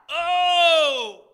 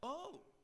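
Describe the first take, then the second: First: It sounds like a pleading cry. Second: It sounds surprised.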